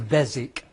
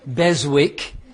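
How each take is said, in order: First: The W in the middle is silent. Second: The W in the middle is pronounced. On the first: The speaker calls it right. "The W is silent. It's a silent W, so the, the pronunciation is Beswick" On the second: The speaker calls it wrong. "you would say it should be pronounced Beswick, uh, but it's not"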